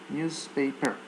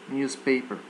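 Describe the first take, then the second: The two takes are said the same way.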